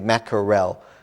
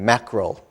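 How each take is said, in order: First: Every syllable is said fully and clearly. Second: The middle syllable is squeezed and reduced. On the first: "We don't say mackerel" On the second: "English is, when we speak, are lazy"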